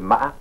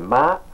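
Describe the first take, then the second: First: It carries the tone that gives the meaning horse. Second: It carries the tone that gives the meaning cheek. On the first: It means horse. "le cheval" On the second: It means mother or cheek. "c'est maman ou la joue"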